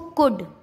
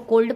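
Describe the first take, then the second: First: The L sound is silent. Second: The L sound is pronounced. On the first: The speaker calls it right. "इसका एल silent हो गया" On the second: The speaker calls it wrong. "नहीं नहीं नहीं"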